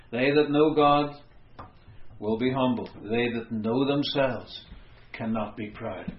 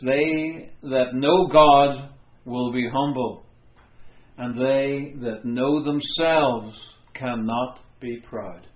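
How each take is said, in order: First: Said in the usual way. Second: Slow, weighty reading of They that know God; slow quotation. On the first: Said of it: "That sums it up". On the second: Shown as a demonstration. Preacher quoting the Puritan John Flavel, slow and solemn. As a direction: draw each phrase out solemnly. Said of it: "He said this".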